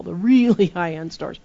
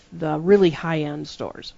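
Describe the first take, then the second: First: "really" stretched out and punched; stress on "really". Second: Said in the usual way. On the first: Shown as a demonstration. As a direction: lean long and hard on "really", amused. Repeats it to emphasize how upscale.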